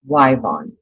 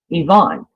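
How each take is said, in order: First: The name begins with a 'why' sound. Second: The name begins with an 'ih' sound. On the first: This is how the name is said in one region. "in Oklahoma, if your name is Yvonne spelled with a Y, um, it's pronounced Wyvon" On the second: This is how the name is said in most other places. "Everywhere I've lived... We say Yvonne"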